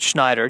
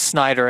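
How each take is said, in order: First: The name begins with a sh sound. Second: The name begins with a plain s sound. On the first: The speaker calls it wrong. "and not Schneider" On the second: The speaker calls it right. "it is Snyder"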